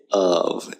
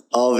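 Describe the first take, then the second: First: "of" as uhv, schwa vowel; weak of. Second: "of" as AHV, open strong vowel; full-vowel of. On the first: Teacher correcting students, "of" as uhv. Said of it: "you say of". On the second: Teacher showing the mistake, "of" as ahv. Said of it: "because you don't say of". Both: Shown as a demonstration.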